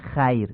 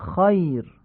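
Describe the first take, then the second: First: The first vowel is fronted, like Persian short a. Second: The first vowel is open and back, like short aa. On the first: The speaker calls it wrong. "نمیگیم" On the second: The speaker calls it right. "میگیم"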